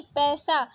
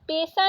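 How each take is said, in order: First: Said in the usual way. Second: पैसा said "pe-sa", closed e; wrong vowel. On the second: Shown as a demonstration. Teacher rejecting a spelling, पैसा with plain e. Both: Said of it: "पैसा नहीं".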